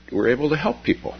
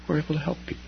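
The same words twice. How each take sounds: First: Said in the usual way. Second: Softer repeat. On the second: Shown as a demonstration.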